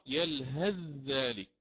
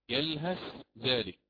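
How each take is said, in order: First: The th sound merges into the following dh. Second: The th sound is pronounced clearly before dh. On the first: This follows the reading that assimilates the letters. "يقرأ هذا الموضع بالإدغام. نعم، يدغم الساء في الذال" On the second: This follows the reading that keeps the letters distinct. "فقد أظهر الإمام ورش من طريق الشاطبية الساء عند حرف الزال"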